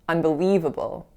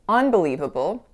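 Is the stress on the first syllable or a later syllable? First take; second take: later syllable; first syllable. First: The stress is on a later syllable, not un. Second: The stress is on the first syllable, un. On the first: The speaker calls it right. "we say unbelievable" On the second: The speaker calls it wrong. "many of my clients are inclined to stress the un part of the word. However, we don't say unbelievable"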